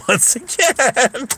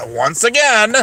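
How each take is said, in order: First: High, slow, laughing words; drawn-out, squeaky with laughter; laughing repeat. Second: Said in the usual way. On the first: Real, not acted. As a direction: stretch it out through laughter.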